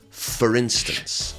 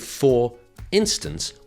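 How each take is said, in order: First: The two words are squashed together. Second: The two words are said separately. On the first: The speaker calls it right. "we squash the words together and we say for instance" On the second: The speaker calls it wrong. "we don't say for instance"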